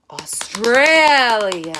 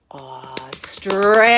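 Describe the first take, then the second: First: Slow, much louder, drawn out Australia. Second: Slow whisper, drawn out. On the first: Teacher shows the loud peak of the crescendo. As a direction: swell Australia big and loud. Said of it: "And that is a crescendo". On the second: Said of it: "I want you to do this". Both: Shown as a demonstration.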